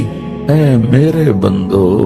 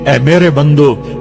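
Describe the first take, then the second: First: It is said in a soft, affectionate tone. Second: It is said in a flat, stern tone. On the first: The speaker calls it right. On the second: The speaker calls it wrong.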